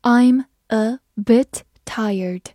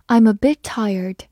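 First: Word-by-word slow teacher reading; slow, separated words for learners to follow; slow read-aloud. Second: Said in the usual way. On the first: Shown as a demonstration. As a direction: read it slowly, pausing after each word. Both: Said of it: "好，慢慢来读".

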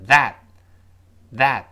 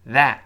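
First: That cut short, t held back; quick unreleased t. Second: That said slowly with a crisp t; slow full form. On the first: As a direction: stop that before the t releases. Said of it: "读快了之后". (that快读，t失去爆破) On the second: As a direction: release the t at the end of that. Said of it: "读慢了". (that慢读，末尾t爆破) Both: Shown as a demonstration.

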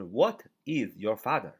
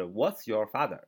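First: Slow and careful, every word of "What is your father?" separate; read it slowly. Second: Contracted What's, run together quickly; read it fast. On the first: Teacher showing students the slow, full reading. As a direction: spell out "What is" as two clear words. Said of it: "慢一点就是". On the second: Teacher demonstrating the fast, contracted reading. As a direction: rattle off "What's your father?" in one quick breath. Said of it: "读快点读就是". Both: Shown as a demonstration.

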